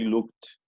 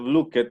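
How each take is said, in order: First: The ending is a short "t" sound. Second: The ending is an extra "ed" syllable. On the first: The speaker calls it right. "we say looked" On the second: The speaker calls it wrong. "Instead of looked"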